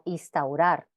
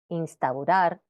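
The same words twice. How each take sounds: First: The n before the s is dropped. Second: The n before the s is clearly pronounced. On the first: The speaker calls it wrong. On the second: The speaker calls it right.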